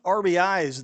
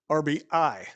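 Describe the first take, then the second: First: The term ends with an s sound. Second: The term ends without an s sound. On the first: The speaker calls it wrong. "I I keep saying R B Is" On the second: The speaker calls it right. "See, I said it right that time"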